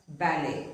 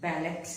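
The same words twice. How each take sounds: First: "ballet" as bal-ay; "ballet" with the last letter dropped; silent T. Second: "ballet" wrongly as bal-et; final T sounded. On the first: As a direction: end "ballet" on an ay, no T. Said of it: "the T is not pronounced". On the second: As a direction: end "ballet" on a hard T. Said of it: "It is not". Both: Shown as a demonstration.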